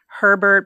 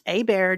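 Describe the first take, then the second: First: It starts with an H and has an R. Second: It starts with a vowel, like 'a bear'. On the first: This is how most people say it. The speaker calls it wrong. "everybody pronounces it Herbert" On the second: This is how the family says it. The speaker calls it right. "it is pronounced a bear"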